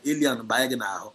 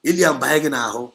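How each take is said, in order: First: Said in the usual way. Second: A stern loud warning to listeners; louder warning. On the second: Real, not acted. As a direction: repeat the warning louder, hammering it home. Warning repeated, second time louder.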